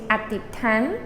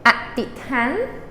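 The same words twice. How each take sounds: First: The word is said at normal speaking speed. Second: The word is said slowly and carefully.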